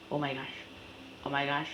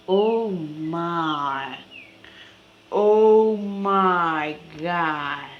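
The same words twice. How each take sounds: First: Much softer, quick oh my gosh under the breath; muttered. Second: Drawn-out amazement. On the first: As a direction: mumble it to yourself. Repeated exclamation, quiet. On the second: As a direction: stretch every word out in awe. Repeated exclamation, drawn out. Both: Real, not acted.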